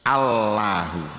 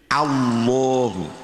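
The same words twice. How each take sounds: First: The l is light, tongue tip on the gum. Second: The l is heavy, with rounded lips. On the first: "Aslinya Allahu. Allahu ujung lidah nempel pada gusi" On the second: "dibaca tafkhim berarti agak dimoncongkan"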